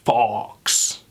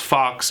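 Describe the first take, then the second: First: The vowel is an open, British 'aw' sound. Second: The vowel is a closer, American-style sound. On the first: "more fox" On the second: "less fox"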